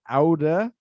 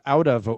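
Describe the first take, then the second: First: The words blend into a reduced 'outa'. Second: Both words are pronounced fully and separately. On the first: "it's usually get outa" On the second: "instead of out of"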